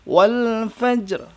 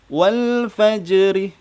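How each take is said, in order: First: The last word ends on a bare consonant. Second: The last word ends with an added vowel. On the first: The speaker calls it right. "Jadi wakafnya seperti itu ya" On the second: The speaker calls it wrong. "itu bacaan yang salah"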